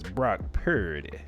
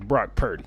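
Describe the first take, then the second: First: The name is said with a sassy, showy flair. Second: The name is said in a plain, neutral way. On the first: Someone else is being imitated. The speaker calls it wrong. "he says it with such a sassy flair" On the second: This is the name as it normally is. The speaker calls it right. "The man's name is Brock Purdy"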